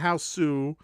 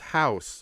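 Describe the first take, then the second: First: The word ends with an extra added vowel. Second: The word ends plainly without an extra vowel. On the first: It uses the Japanese form of the title. The speaker calls it wrong. "It's not House Sue" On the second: It uses the plain English form of the title. The speaker calls it right. "It's House"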